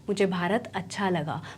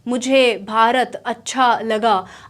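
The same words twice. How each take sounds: First: The words are blended smoothly into each other. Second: The words are said separately, like a foreigner.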